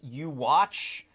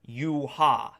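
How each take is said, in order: First: The name ends with a 'ch' sound. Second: The name ends with an 'ah' sound. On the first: Other people say it this way. "I've heard it pronounced you watch" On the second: The speaker always says it this way. "that's how I always pronounced it"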